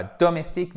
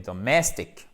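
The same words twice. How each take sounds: First: DOMESTIQUE with full O, even syllables; wrong, French pronunciation. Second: DOMESTIC as duh-MESS-tik; weak first syllable in "domestic", strong MESS; correct English stress. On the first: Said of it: "Et pas domestique". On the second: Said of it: "mais domestic". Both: Shown as a demonstration.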